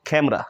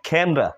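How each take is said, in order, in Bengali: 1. মাঝের স্বরধ্বনিটি নীরব থাকে। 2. মাঝের স্বরধ্বনিটি নীরব থাকে।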